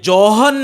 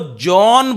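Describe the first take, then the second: First: An h sound is pronounced in the middle. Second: No h sound is pronounced in it. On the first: The speaker calls it wrong. "ये जॉहन नहीं बोलना है आपको" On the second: The speaker calls it right. "जॉन बोलना है। एच silent करके चलेंगे आप।"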